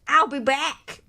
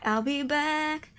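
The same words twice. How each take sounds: First: Louder, far-off menacing promise; movie line. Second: Slow, drawn-out menacing promise; slow take. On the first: Killer signing off to police, menacing movie-villain promise. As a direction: announce the return like a movie villain. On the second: Killer signing off, slow drawn-out movie-villain line. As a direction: stretch it out slowly. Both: Acted. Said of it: "movie line impression".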